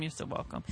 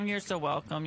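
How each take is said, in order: First: Soft breathy whisper. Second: Said in the usual way. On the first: Real, not acted. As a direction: drop to a whisper. Repeated thanks, second whispered.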